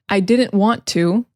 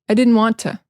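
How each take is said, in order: First: The T in didn't is clearly pronounced. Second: The T in didn't is dropped. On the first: "instead of saying" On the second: "they don't say the T in didn't"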